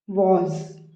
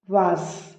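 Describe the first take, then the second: First: The final consonant is a buzzing z sound. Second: The final consonant is a hissing s sound. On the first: The speaker calls it right. "Z sound is there" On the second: The speaker calls it wrong. "we never says was"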